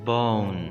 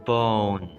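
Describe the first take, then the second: Both takes have the same delivery.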